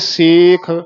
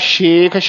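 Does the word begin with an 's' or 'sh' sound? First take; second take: s; sh. First: The word begins with a plain 's' sound. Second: The word begins with an 'sh' sound. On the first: The speaker calls it right. "ਇਸ ਕਰਕੇ ਸੇਖ ਪੀਰ ਪਾਤਸ਼ਾਹ" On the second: The speaker calls it wrong. "ਸ਼ੇਖ ਸ਼ਸ਼ਾ ਹੀ ਨਾ ਬੋਲ ਦਿਓ"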